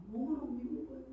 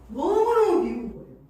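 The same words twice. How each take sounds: First: 너무너무 repeated softly, higher; softer echo. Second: 너무너무 burst out high and loud; emphatic outburst. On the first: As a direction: say 너무너무 again as a softer afterthought. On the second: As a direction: blurt 너무너무 much louder and higher. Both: Real, not acted.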